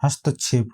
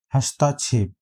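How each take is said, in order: First: हस्तक्षेप with short middle vowel, has-ta-chhep; हस्तक्षेप as has-tuh-chhep, no long aa; correct form. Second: हस्ताक्षेप with long middle vowel, has-taa-chhep; incorrect form. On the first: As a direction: say हस्तक्षेप with a brief "ta". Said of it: "हस्तक्षेप होता है". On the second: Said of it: "इसका हो गया अशुद्ध शब्द". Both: Shown as a demonstration.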